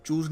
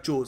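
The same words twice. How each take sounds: First: चूज़ with a long "oo" vowel; चूज़ rhyming with "lose"; wrong word form. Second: Chose with a long "oh" vowel; chose rhyming with "nose"; corrected word form. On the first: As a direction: say चूज़ as "chooz", the form being rejected. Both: Shown as a demonstration. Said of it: "चूज़ नहीं आएगा".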